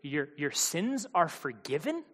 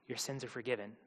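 First: Slow, halting echo, rising in doubt; stammered, incredulous question; disbelieving question. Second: Low and much softer; hushed, falling statement; quiet pronouncement. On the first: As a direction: repeat it as if you misheard. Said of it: "What did he say?". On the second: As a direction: drop low and pronounce it softly. Jesus gently addresses the paralysed man. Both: Acted.

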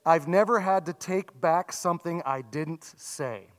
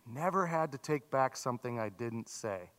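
First: Said in the usual way. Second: Quiet, reflective repeat; soft echo. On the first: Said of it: "I heard one man say". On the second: Shown as a demonstration. Pastor echoing the quote softly so the congregation thinks. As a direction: repeat it softly, letting it sink in. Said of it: "Think about that".

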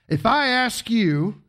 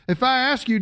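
First: If I ask you stretched out slowly; slow each word of if I ask you to tease the crowd; slow, drawn out. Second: Said in the usual way. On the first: Shown as a demonstration. Pastor teasing the congregation, slow drawn-out question.

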